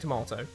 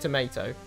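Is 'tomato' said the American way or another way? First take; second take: other; American. First: It is said with a non-American pronunciation. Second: It is said with an American pronunciation.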